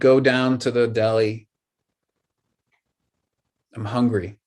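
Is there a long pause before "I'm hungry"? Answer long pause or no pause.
long pause. A long pause separates the two ideas. The ideas seem unrelated. The speaker calls it wrong. "like those ideas, nothing's connected"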